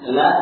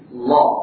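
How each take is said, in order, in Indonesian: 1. Bunyi l ringan dan tipis. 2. Bunyi l berat dan tebal. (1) "yang tadinya tipis"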